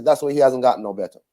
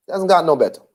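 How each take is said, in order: First: Rattled off fast, stress on "That's"; "That's why he hasn't gotten no better" dito de forma rápida e corrida; quick first take. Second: Slower, leaning on "gotten"; slow emphatic repeat. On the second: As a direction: say "He hasn't gotten no better" again slowly, pressing on "gotten". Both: Shown as a demonstration.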